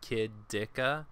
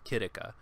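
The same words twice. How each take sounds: First: The middle consonant is a plain, hard D. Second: The middle consonant is a rolled, flapped sound. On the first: "I just go kidika" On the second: "sort of roll it off like"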